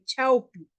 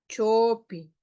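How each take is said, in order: First: The first vowel glides as an au diphthong. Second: The first vowel is a single plain o. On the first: This is how speakers from the Conchucos area say it. "ellos pronuncian chaupi" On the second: This is how speakers from the Callejón de Huaylas say it. "nosotros pronunciamos así"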